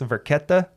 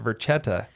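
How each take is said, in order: First: The middle consonant is a hard K sound. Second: The middle consonant is a CH sound. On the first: The speaker calls it right. "Said it right" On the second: The speaker calls it wrong. "this whole time I've been pronouncing it Verchetta"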